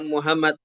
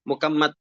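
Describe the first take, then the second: First: The middle consonant is an h sound. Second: The middle consonant is a k sound. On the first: "harus ada tasdidnya, bukan Muhammad" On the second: "sebagian orang Jawa bilang mukammat, ya, pakai kaf"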